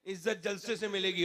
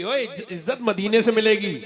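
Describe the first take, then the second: First: Quoting popular belief. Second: Loud rebuttal of the mistaken belief; emphatic correction. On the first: Retold or imitated. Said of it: "लोग समझते हैं कि". (लोगों की सोच, दबी आवाज़ में) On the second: Real, not acted. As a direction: proclaim "इज्जत मदीने से मिलेगी" forcefully as the truth. (ज़ोरदार आवाज़ में सुधार)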